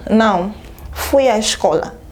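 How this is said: A short pause follows the first word. No; I did go to school. "Pausa, uma pausa curta"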